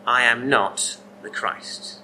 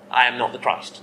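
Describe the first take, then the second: First: Slow, deliberate "I am not the Christ" with weight on "I"; slow, weighted denial, stress on "I"; very firm denial. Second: Said in the usual way. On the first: Shown as a demonstration. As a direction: lay each word down slowly, leaning on "I". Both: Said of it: "He's very firm".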